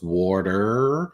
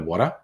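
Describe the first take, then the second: First: The final R is clearly pronounced. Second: The final R is left silent. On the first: "most Americans... really pronounce the letter R at the end of the word" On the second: "we go water"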